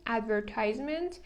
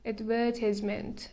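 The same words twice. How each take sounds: First: It is said with an American pronunciation. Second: It is said with a British pronunciation. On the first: "this is American pronunciation" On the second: "British pronunciation is advertisement"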